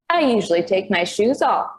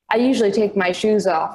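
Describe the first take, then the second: First: It is said in a dopey, mocking voice. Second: It is said in a plain, ordinary voice. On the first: Someone else mocks the narrator's words. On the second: The narrator states her own habit.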